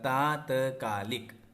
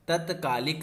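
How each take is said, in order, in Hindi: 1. पहला स्वर लंबा है। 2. पहला स्वर छोटा है। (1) "ता में आ की मात्रा" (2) "तत्कालिक नहीं होता है"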